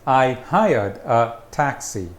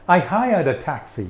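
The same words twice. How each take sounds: First: The words are separated by small breaks. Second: The words run together with no breaks. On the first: The speaker calls it wrong. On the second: The speaker calls it right.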